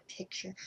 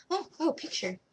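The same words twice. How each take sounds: First: Said in the usual way. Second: Bright, higher "oh, oh" as she finds it; a sudden "oh!" of finding it; spotting the picture she needs; sudden realization. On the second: Real, not acted.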